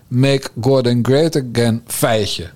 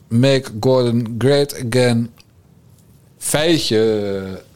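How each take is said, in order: First: The phrase and feitje run together as one word. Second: The word feitje stands apart from the phrase. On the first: "Dat er gewoon een koppelteken tussen MGGA en feitje moet" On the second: "Dat het is nu"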